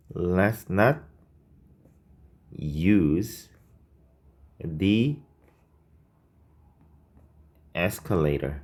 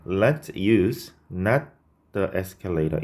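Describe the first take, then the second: First: Each word drawn out with pauses between; slow dictation of the correct version. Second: Slow, drawn-out reading of the error; reading the wrong version. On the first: Teacher slowly dictating the corrected sentence to students. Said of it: "이렇게 써주시면 됩니다". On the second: Teacher reading the faulty sentence slowly for students. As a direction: lay out the mistake slowly, word by word. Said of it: "이상하죠?". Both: Shown as a demonstration.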